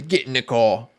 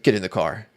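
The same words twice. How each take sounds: First: Hammy mock British police officer; a clumsy British accent, barked as an order; bad British accent. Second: Said in the usual way. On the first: Streamer imitates a British cop ordering a driving viewer, bad British accent. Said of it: "That was the worst British accent ever". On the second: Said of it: "Or they say".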